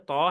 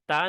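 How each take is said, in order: First: The ta sound is heavy and thick. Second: The ta sound is light and thin. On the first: The speaker calls it right. "थोड़ा मोटा है" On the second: The speaker calls it wrong. "ता नहीं है"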